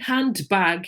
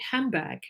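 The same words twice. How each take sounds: First: Each part of the word is said separately. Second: The parts are joined together in connected speech. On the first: The speaker calls it wrong. "we don't say handbag in English" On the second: The speaker calls it right. "we say handbag, ... the words, you know, join together into connected speech"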